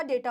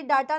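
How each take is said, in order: First: डेटा as "DAY-ta", softer and lower; correct vowel. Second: डेटा as "DAA-ta"; long "aa" opening डेटा; wrong vowel. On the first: Teacher corrects the class, डेटा said "DAY-ta", lower. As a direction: drop softly onto "day" in डेटा. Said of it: "डेटा होता है". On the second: Teacher rejects the common error, डेटा said "DAA-ta". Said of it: "ये डेटा नहीं होता". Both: Shown as a demonstration.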